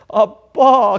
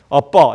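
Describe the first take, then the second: First: It is said in a whiny childlike voice. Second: It is said in a plain adult voice. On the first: The speaker calls it right. "어린아이의 어리광스러운 목소리가 거기 들어가야지 어울리지" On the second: The speaker calls it wrong. "이건 어울리지가 않아요"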